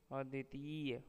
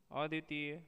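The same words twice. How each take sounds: First: Said in the usual way. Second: अद्वितीय ending short on a rise; अद्वितीय said as "aditee"; wrong form. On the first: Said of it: "शुद्ध शब्द". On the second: Shown as a demonstration. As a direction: clip the final "ya" of अद्वितीय. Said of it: "अशुद्ध शब्द".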